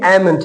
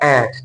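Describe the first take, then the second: First: The m sound is pronounced in the word. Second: The m sound is silent in the word. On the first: The speaker calls it wrong. "ऐसे लग रहा है कि एमेंट है, लेकिन एमेंट नहीं है" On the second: The speaker calls it right. "इसमें एम साइलेंट है और ये बन जाता है एंट"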